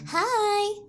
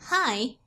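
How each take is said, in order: First: It is said in a flirty, playful way. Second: It is said in a plain, neutral way.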